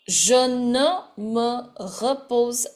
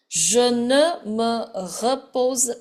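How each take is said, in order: Both takes have the same delivery.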